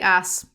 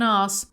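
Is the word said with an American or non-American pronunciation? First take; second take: American; non-American. First: The word is said with an American pronunciation. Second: The word is said with a non-American pronunciation. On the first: The speaker calls it right. "they say ass" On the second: The speaker calls it wrong. "Americans don't say ass like that"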